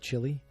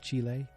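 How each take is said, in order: First: It is said the English way, like chilly. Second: It is said the Spanish way, like chee-leh. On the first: The speaker calls it wrong. "I used to say Chile" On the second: The speaker calls it right. "that's the much cooler way to say it"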